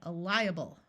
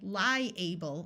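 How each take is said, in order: First: The ending is reduced to a muffled schwa sound. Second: The ending has a clear full 'able' sound. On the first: The speaker calls it right. "we say liable" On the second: The speaker calls it wrong. "we don't say liable"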